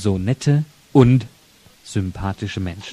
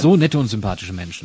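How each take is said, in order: First: It is said very slowly. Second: It is said at normal speed.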